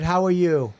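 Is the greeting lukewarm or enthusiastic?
lukewarm. It is said in a lukewarm, flat tone.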